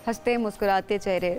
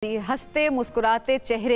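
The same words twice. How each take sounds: First: It is said in an irritated, grumpy tone. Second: It is said in a cheerful, pleasant tone. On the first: Listeners would not like it. The speaker calls it wrong. "Obviously किसी को अच्छा नहीं लगेगा" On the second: Listeners find it pleasant. The speaker calls it right. "सबको अच्छे लग रहे होंगे"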